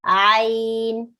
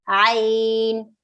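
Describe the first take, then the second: No difference in how they are said.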